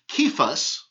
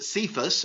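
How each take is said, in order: First: The name is pronounced the Greek way. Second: The name is pronounced the usual English way. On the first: "In the Greek, it would be" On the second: "generally in the English, we pronounce it"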